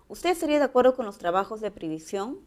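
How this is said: The pitch rises at the end. It is asked as a question. "Aquí el tono final es ascendente"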